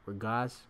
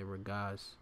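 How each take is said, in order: First: Regaz? rising like a question, testing the word; unsure try. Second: Regaz said settled, falling and softer; confirmed word. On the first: Teacher hunts for the Hebrew for disquiet, unsure. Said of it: "what's that?". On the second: Teacher settles on the Hebrew word, confident. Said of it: "Yeah, regaz". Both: Shown as a demonstration.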